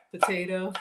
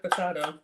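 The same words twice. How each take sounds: First: Potato with a long "ay", puh-TAY-toe; potato the everyday way; potato the usual way. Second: Potato with a broad "ah", puh-TAH-toe; joke pronunciation of potato. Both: Shown as a demonstration. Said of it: "I don't think I've ever heard potato".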